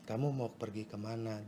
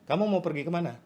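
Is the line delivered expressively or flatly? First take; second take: flatly; expressively. First: The line is read flatly, with little expression. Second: The line is voiced out with strong expression. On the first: The speaker calls it wrong. "Jangan dibaca seperti itu" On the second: The speaker calls it right. "Dikeluarin, ekspresikan"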